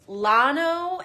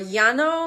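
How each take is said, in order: First: The word is said with an English pronunciation. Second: The word is said with a Spanish pronunciation.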